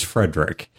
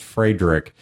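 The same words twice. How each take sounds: First: Frederick said the anglicized way; guest's insisted pronunciation. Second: Frederick said the German way; German-style pronunciation. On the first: Host conceding the guest's own name, anglicized pronunciation. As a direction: say Frederick as in English, not German. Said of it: "he has insisted it is". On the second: Host showing how the guest's name should sound, German pronunciation. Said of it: "his name is probably pronounced". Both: Shown as a demonstration.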